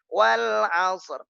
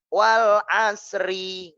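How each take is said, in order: First: The final word ends with a bare 'r' sound. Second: The final word ends with an added 'ri' syllable. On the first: The speaker calls it right. "Tanpa dibaca ri" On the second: The speaker calls it wrong. "Enggak, enggak, enggak. Salah"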